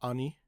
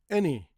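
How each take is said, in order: First: The first vowel sounds like 'ah'. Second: The first vowel sounds like 'eh'. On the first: The speaker calls it wrong. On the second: The speaker calls it right. "the sound is still e"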